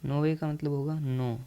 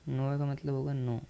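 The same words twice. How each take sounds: The two takes are said the same way.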